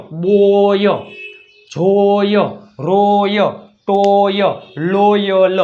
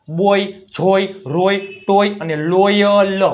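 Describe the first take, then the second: First: "બોય, જોય, રોય" each held long and apart; demonstrated OY sound. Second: "બોય, જોય" joined in a list, OY less stretched; OY recap. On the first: Teacher showing O before Y, "બોય" stretched emphatically. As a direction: drill "ટોય, લોયલ" with a drawn-out OY. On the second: Teacher recapping the words, "બોય" said slowly but less drawn out. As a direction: run through "રોય, ટોય અને લોયલ" with measured OY. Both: Shown as a demonstration. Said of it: "ઓનો ઉચ્ચાર શું થાય?".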